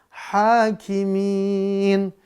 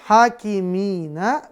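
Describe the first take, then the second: First: The word ends on a bare consonant. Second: The word ends with an added vowel sound. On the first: The reciter stops at this word. "hakimina jadi hakimin" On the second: This is the form without stopping. "hakimina jadi hakimin"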